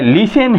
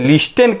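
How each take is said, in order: First: The t sound is left out. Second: The t sound is clearly pronounced. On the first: The speaker calls it right. "ये लिसन है, टी क्या है यहाँ silent है" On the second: The speaker calls it wrong. "इसको हम बहुत लोग जो है लिस्टेन कहते हैं, लेकिन नहीं"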